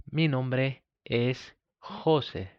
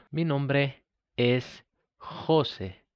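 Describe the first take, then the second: No difference in how they are said.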